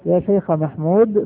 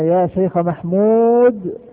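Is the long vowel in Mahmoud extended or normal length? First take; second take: normal; extended. First: The long vowel has normal length, flowing onward. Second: The long vowel is extended before a stop. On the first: "عند الوصل طيب يكون الأمر كما ذكرنا أنه نمده مدا طبيعيا" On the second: "لو وقفنا عليها ... قد نمده مد عارض"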